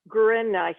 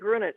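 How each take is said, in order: First: The name is pronounced with German sounds. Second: The name is pronounced with American English sounds. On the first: "she's a German speaker, so it could be Gruenreich" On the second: "it might be Americanized and be Grunich"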